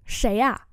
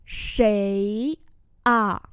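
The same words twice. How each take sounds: First: Said in the usual way. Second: Long rising "Sấy", then a separate "à"; slow-motion pronunciation model; slow demonstration. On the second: Shown as a demonstration. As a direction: draw out both syllables for learners. Teacher repeats slowly for learners.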